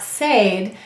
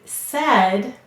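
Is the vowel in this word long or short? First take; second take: long; short. First: The vowel is long, as in 'day'. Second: The vowel is short, as in 'bed'. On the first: The speaker calls it wrong. "not said" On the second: The speaker calls it right. "we say said"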